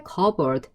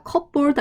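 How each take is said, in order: First: "커버드" with a silent P; correct cupboard pronunciation. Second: "컵보드" with the P wrongly sounded; wrong cupboard pronunciation. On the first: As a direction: say "커버드" like CUB-erd, no P sound. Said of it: "발음 어떻게?". (P 소리 없이 "커버드"로 발음) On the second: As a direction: say "컵보드" as cup-board, P audible. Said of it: "컵보드 아닙니다". (P 소리를 넣어 잘못 읽은 "컵보드") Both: Shown as a demonstration.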